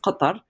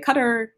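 First: The name is said with Arabic sounds. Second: The name is said with English sounds. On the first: "So it's in Arabic, it's Qatar" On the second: "but people say Qatar"

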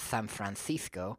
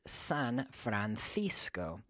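First: The s in San is said like th. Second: The s in San is said like s. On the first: The speaker calls it wrong. "It's not San Francisco" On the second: The speaker calls it right. "the S in San and the other S in Francisco, Francisco, sounds like an S also"

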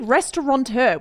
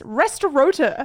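First: An N sound is said before the T. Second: No N sound is said before the T. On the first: "It should be restaurateur, which is how I've always pronounced it" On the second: "but it's restaurateur"

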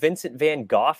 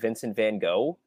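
First: The surname ends with a 'goff' sound. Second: The surname ends with a 'go' sound. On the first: This is how Europeans say it. "Europeans call him" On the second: This is how Americans say it. "instead of"

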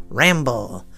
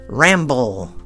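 The two takes are said the same way.

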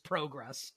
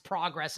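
First: It is said with a British accent. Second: It is said with an American accent.

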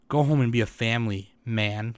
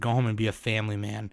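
First: There is a pause before "man". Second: It is said smoothly with no pause before "man".

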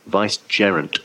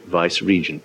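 First: The word ends with a 'gerent' sound. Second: The word ends with a 'regent' sound. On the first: The speaker calls it right. "No, vicegerent" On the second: The speaker calls it wrong. "everyone always mispronounces it vice-regent"

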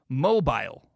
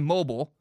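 First: It is said with a British pronunciation. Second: It is said with an American pronunciation. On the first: "You guys say mobile" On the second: "in America, we say mobile"

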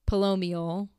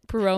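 First: The second consonant is an L sound. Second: The second consonant is an R sound. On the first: The speaker calls it wrong. "not L" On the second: The speaker calls it right. "R, not L"

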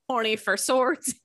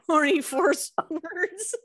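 First: The s joins the last word: 'for swords'. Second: The s joins the middle word: 'force words'. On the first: The speaker calls it right. "her name was" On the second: The speaker calls it wrong. "not force words"

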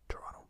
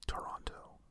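First: It is said the quick Canadian way. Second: It is said the fuller American way.

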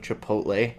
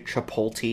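First: The L sound comes after the T sound. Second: The L sound comes before the T sound. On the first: The speaker calls it right. "It is chipotle, everybody" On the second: The speaker calls it wrong. "Mix the L and the T"

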